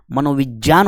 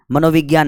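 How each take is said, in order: First: "मनोविज्ञान" said as "manovijyaan"; "मनोविज्ञान" with j before the last syllable; correct pronunciation. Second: "मनोविज्ञान" said as "manovigyaan"; "मनोविज्ञान" with g before the last syllable; common wrong pronunciation. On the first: Shown as a demonstration. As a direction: say "मनोविज्ञान" with j in place of g. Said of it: "मनोविज्ञान होता है". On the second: Retold or imitated. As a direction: say "मनोविज्ञान" with a hard g plus y. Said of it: "मनोविज्ञान नहीं".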